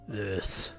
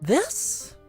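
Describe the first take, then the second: First: The voice is pitched very low. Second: The voice is pitched higher. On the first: This is the voice the speaker wants to move away from. The speaker calls it wrong. "less this. God, it's so hard to go so low now" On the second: This is the voice the speaker wants. The speaker calls it right. "more this"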